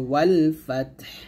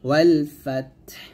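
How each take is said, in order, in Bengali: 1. শেষ শব্দটি ব্যঞ্জনধ্বনিতে শেষ হয়। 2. শেষ শব্দটি ব্যঞ্জনধ্বনিতে শেষ হয়।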